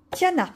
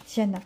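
First: Higher, louder call of the name Tiana. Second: Said in the usual way. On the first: Real, not acted. Vlogger calling out the princess's name, loud and bright. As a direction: sing out Tiana like announcing her.

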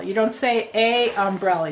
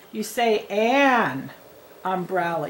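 First: Said in the usual way. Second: "an" drawn out slow before "umbrella"; stress on AN. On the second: Shown as a demonstration. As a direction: lean on "an", then "umbrella". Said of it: "have a word that starts with a vowel".

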